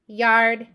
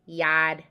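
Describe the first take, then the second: First: The R in yard is pronounced. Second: The R in yard is dropped.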